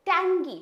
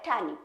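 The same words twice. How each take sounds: First: टैंगी with an audible g after the nasal; G sounded in टैंगी. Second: टैनी with the g dropped after the n; light, silent G. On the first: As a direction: say टैंगी loud, with its g pronounced. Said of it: "ये जी जो है थोड़ा सा light pronounce होता है". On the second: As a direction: say टैनी low, as "tan-ee", no hard g. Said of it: "थोड़ा सा light pronounce होता है". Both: Shown as a demonstration.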